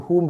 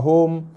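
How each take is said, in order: First: The vowel is a short u. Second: The vowel is a long o. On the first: The speaker calls it right. "jaga hum" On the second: The speaker calls it wrong. "bukan home"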